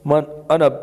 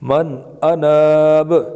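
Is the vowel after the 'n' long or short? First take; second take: short; long. First: The vowel after the 'n' is short. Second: The vowel after the 'n' is long. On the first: The speaker calls it wrong. "पढ़ना गलत है" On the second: The speaker calls it right. "पढ़ना ठीक है"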